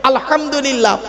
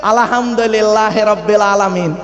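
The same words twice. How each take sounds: First: আলহামদুলিল্লাহ with a throaty হ; correct pronunciation. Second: Slow mocking আলহামদুলিল্লাহি with a flat Bengali হ; mock wrong pronunciation. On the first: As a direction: recite আলহামদুলিল্লাহ in proper Arabic. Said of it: "এ গলার ভেতর থেকে হে এটা উচ্চারণ করবেন". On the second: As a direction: imitate sloppy village recitation of আলহামদুলিল্লাহি রাব্বিল আলামিন. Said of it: "আর আমরা উচ্চারণ করি কি শুনবেন?". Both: Shown as a demonstration.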